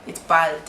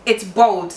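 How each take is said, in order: First: BALD with an open A, "bahld"; Kenyan pronunciation. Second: BALD said like "bold"; British pronunciation. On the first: Showing how it is said in Kenya, open vowel. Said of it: "in Kenya". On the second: Showing how they say it in England, rounded vowel. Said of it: "you see when they say". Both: Shown as a demonstration.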